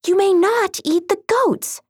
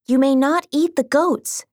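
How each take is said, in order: First: Higher, firmer princess warning; firmer cartoon princess. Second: Cartoon princess. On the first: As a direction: repeat it sternly, higher. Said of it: "she said again". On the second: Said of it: "she said". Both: A narrator's reading.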